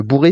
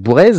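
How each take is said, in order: First: The name ends in a vowel, without z. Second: The name ends with a pronounced z sound. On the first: "je trouvais que Bourré c'était pas mal" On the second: "si on prononce le Z parce que ça ferait Michel Bourrez"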